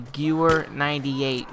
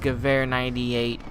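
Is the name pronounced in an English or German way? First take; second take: English; German. First: The name is pronounced the English way. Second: The name is pronounced the original German way. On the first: "if you want to pronounce it as English" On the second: "the original version is"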